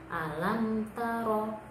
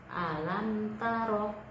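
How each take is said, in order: No difference in how they are said.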